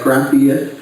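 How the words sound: The word ends with a th sound.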